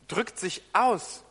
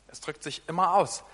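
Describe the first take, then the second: First: "drückt sich aus" drawn out slowly, leaning on "aus"; slow, weighty "drückt sich aus"; slow emphasis. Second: Said in the usual way. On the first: Shown as a demonstration. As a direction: stretch out "drückt sich aus", landing hard on "aus".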